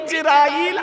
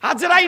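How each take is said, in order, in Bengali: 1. নামটি 'i' স্বরধ্বনি দিয়ে শুরু হয়। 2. নামটি 'a' স্বরধ্বনি দিয়ে শুরু হয়। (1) "নাম হলো ইজরাইল" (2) "আজরাইল নয়"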